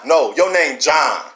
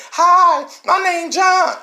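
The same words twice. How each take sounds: First: Said in the usual way. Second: Much higher and louder, a mincing mock greeting. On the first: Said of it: "That's how we talk". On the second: Speaker mocks the village people coming in, high mocking voice. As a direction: squeak it out like a caricature.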